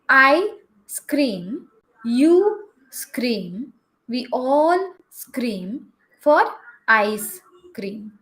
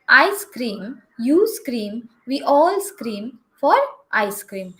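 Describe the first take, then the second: First: It is read at a slower, careful pace. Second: It is read at a quicker pace. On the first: "let me read it again for you" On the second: "let me read it a little bit quicker for you"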